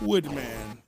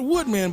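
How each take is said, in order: First: It is said in a deep, throaty voice. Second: It is said in a normal speaking voice. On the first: The speaker calls it right. "Gotta use the, the esophagus to say that one there" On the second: The speaker calls it wrong. "Not Woodman"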